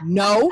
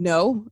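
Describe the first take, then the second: First: It is said loudly and forcefully. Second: It is said at normal, softer volume.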